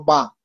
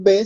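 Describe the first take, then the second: First: "ba" ending in a short a; name the consonant "ba", with a instead of e; Hindi letter name. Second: "B" said "be", ending in e; name "B" the Spanish way, with an e vowel; Spanish letter name. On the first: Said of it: "en hindi nosotros no decimos B, sino ba". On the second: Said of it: "no decimos B". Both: Shown as a demonstration.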